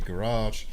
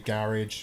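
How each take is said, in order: First: It is said in an American accent. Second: It is said in a British accent. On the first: "as Americans say" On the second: "as we Brits say"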